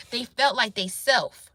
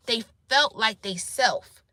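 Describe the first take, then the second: No difference in how they are said.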